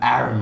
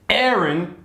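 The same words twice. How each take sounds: First: The name is said the Australian way. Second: The name is said the American way. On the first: This is how it is said locally. "in Australia we pronounce it Aaron" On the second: This is how the name's owner wants it said. "I'm going to take it you're from the U S. But I will, for your for your benefit"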